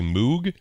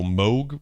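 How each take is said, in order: First: Moog is said in the common English way. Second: Moog is said in the German way. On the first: The speaker calls it wrong. "A lot of people say Moog" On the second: The speaker calls it right. "it's German, so Moog would be the proper pronunciation"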